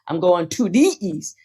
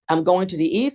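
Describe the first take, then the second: First: 'Going to' is said fully and crisply. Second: 'Going to' is softened and run together. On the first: The speaker has not studied the dialect. The speaker calls it wrong. "which is when that shows a person has not studied the language as a language" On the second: The speaker knows the dialect well. The speaker calls it right. "that you can speak it so it sounds natural"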